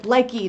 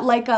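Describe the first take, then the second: First: The name ends with an 'ee' sound. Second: The name ends with an 'uh' sound. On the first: The speaker calls it right. "Likey, not Leica like the magazine" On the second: The speaker calls it wrong. "not Leica like the magazine"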